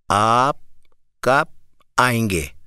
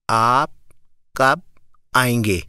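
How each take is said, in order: The two takes are said the same way.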